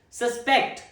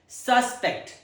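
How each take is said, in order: First: The stress is on the second syllable. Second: The stress is on the first syllable. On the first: It means to believe something is likely. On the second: It names a person thought to be guilty.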